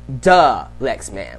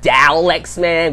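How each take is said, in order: First: The first syllable is a weak duh. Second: The first syllable sounds like dah. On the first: The speaker calls it right. "it's pronounced duh Lex Man" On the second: The speaker calls it wrong. "which is what Mick Foley called me"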